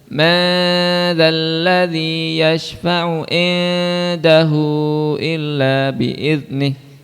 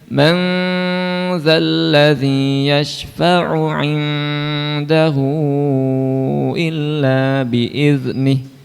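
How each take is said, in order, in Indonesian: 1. Huruf n dihilangkan, tanpa dengung sengau. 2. Huruf n disembunyikan dengan dengung sengau. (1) "Jadi jangan bunyikan dengung dari rongga rongga mulut. ... Itu salah"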